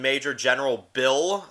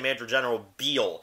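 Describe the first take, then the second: First: The name is said with a short i vowel. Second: The name is said with a long ee vowel. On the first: The speaker calls it wrong. "every time I mention Major General Bill, everybody always just freaks out at me" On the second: The speaker calls it right. "you have to say Major General Beal"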